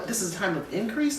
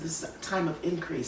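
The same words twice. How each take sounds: First: Said in the usual way. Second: Softer and quicker, a calm inner voice; repeating God's gentle words with a softer voice; God's quiet reply. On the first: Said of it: "you know". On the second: Retold or imitated. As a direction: say it softly and quickly as the quiet word from God. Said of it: "And he said".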